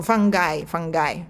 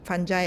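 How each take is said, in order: First: Fungi corrected to a hard g and final "eye"; fungi as fun-guy. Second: Unsure Fungi with soft g and final "eye"; Fungi as fun-jai. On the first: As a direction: say fungi twice like "FUNG-guy". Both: Shown as a demonstration. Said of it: "American, how they pronounce?".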